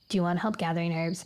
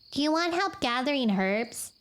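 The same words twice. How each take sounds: First: It is said in a lower, flat voice. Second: It is said in a higher voice.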